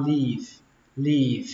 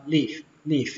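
First: "leave" with the ee drawn out; long i. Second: "leave" cut short, like "liff"; short i, mistaken. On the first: Teacher showing learners the right way, "leave" drawn long. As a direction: stretch the vowel of "leave" before v. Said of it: "các bạn kéo nó ra". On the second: Teacher showing learners the mistake, "leave" with short i. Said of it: "tránh trường hợp đọc âm y ngắn". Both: Shown as a demonstration.

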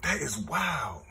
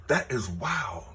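First: Quiet stunned repeat; softer slower echo. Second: Said in the usual way. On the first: Real, not acted. Repeats in disbelief.

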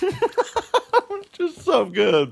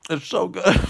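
First: High and very slowly drawn out, stretching so; a blissed-out, high-pitched so good; savoring delight. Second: Said in the usual way. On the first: Real, not acted. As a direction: swoon over the taste, pitched way up and stretched long.

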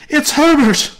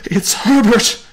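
First: Piercingly high, full scream. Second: High, loud scream of recognition; old woman screaming out her son's name. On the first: Mother screaming to husband that son has come, screamed. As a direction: scream it higher still, frantic mother. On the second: Mother realising her son is at the door, screaming. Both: A narrator's reading. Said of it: "she screamed".

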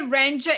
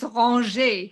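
First: Said in the usual way. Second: "ranger" said the French way, as ron-ZHAY; French pronunciation. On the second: Shown as a demonstration. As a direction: slowly model "ranger" in French. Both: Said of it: "If you say ranger in French".

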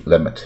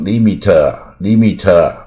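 First: "limit" as "lem-it" with a barely released t; short lax vowels and a faint t in "limit"; light final T. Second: "limiter" as slow "lee-mee-tuh", the T blown into its own syllable; heavy final T. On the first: Teacher showing foreigners' light T, short "lem-it" for "limit". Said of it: "外国人这个T就很轻". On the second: Teacher mocking learners' overdone T, drawn-out "lee-mee-tuh". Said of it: "甚至T念得很重". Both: Shown as a demonstration.

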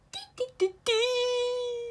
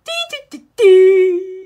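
First: High, soft sing-song error beeps; high quiet beeps. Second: High beeps that burst loud at the end; loud mock beeps. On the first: Pretend. Mocking the broken computer with soft high beeps. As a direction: chirp it softly like a machine. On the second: Mocking the computer with loud high beeps. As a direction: blare the beeps like an alarm.

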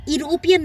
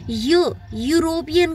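First: यूरोपियन wrongly begun with an "ee" sound, as "ee-ropian"; mispronounced with ई. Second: यूरोपियन begun with a clear y-glide, "yu-ropian"; य sound at the start. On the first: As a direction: say यूरोपियन as ईरोपियन, with no y-glide. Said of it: "ई से pronounce नहीं हो रहा है". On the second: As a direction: sound out य first, then say यूरोपियन with that y. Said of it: "य जो sound है हमारा". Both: Shown as a demonstration.

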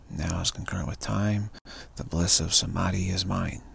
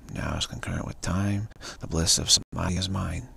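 Both takes have the same delivery.

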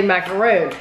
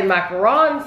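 First: Macaroon with a long stressed "roon"; American macaroon. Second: Macaron with a stressed final "ron", as in French. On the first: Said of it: "some people say macaroon". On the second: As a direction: say "macaron" ending in "-ron", not "-roon". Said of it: "some people say macaron". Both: Shown as a demonstration.

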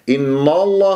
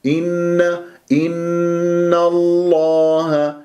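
First: "إن الله" with a thick, dark n; wrongly heavy noon. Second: "إن الله" chanted slowly, thin n then thick lam; slow, higher recited "إن الله" with unrounded heavy lam; light noon, heavy lam. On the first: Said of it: "إن الله خطأ". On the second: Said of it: "هكذا النون مرققة وفخمت اللام". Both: Shown as a demonstration.

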